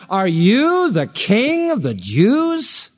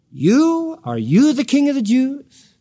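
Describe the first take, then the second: First: Slow question leaning on "you", drawn out and firm; "you" hit hard as the emphatic Greek pronoun; stress on you. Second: "You" barked out high, then "you" stressed again in a rising question; single out "You" with high disbelief before the question; higher, mocking "You, are you" of a doubting magistrate; incredulous stress on you. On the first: Retold or imitated. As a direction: press the word "you" in a slow, deliberate question. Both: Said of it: "it's the emphatic Greek pronoun".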